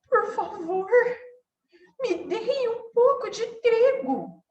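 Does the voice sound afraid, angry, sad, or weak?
afraid. The voice sounds scared and timid. The speaker feels afraid. "E se ela tivesse com medo?"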